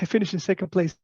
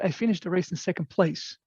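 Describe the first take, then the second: First: It sounds happy and excited. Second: It sounds disappointed and frustrated.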